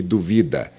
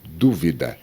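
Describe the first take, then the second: First: "duvida" stressed on VI; stress on middle syllable. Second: "dúvida" stressed on DÚ; stress on the first syllable. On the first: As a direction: say "duvida" as the verb, du-VI-da. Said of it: "duvida é um verbo". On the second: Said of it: "Dependendo de como você pronuncia". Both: Shown as a demonstration.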